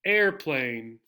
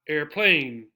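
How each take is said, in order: First: The stress is on the first syllable. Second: The stress is on the second syllable. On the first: The speaker calls it right. "We stress the first syllable" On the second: The speaker calls it wrong. "not airplane"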